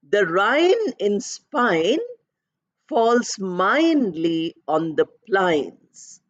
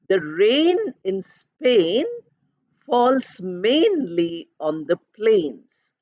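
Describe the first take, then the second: First: The key vowels sound like 'eye', Cockney style. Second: The key vowels sound like 'ay', standard style. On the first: The speaker calls it wrong. "this young girl pronounced it as I" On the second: The speaker calls it right. "The actual pronunciation"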